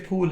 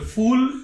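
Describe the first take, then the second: First: The word starts with an aspirated p sound. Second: The word starts with an f sound. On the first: It means a flower. "ये फूल है" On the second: It means a foolish person. "फूल तुम हो"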